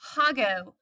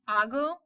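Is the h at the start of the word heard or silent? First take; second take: heard; silent. First: The h at the start is heard. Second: The h at the start is silent. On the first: The speaker calls it wrong. "I do not want you all to pronounce these" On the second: The speaker calls it right. "the H is silent"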